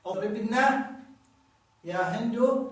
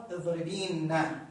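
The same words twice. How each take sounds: First: اضربنا with short i before n, joined to يا هند; connected form, ya dropped. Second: اضربينا with a drawn-out ee before n; slow down and hold the ee in اضربينا; original form with ya. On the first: Teacher shows connected feminine verb, ya shortened away. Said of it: "في حالة الوصل". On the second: Teacher points out the hidden ya, long vowel stretched. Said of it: "فيها ياء". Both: Shown as a demonstration.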